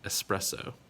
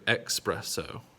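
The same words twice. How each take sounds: First: The word begins with an 'es' sound. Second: The word begins with an 'ex' sound. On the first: The speaker calls it right. "it is an S sound" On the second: The speaker calls it wrong. "I hope you don't like to drink your espresso"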